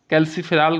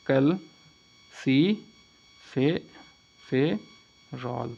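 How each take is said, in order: First: Said in the usual way. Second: calciferol very slowly, broken into syllables with pauses. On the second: Shown as a demonstration. Teacher drilling the name of vitamin D, syllable by syllable. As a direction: dictate calciferol piece by piece. Vitamin D को क्या कहते हैं.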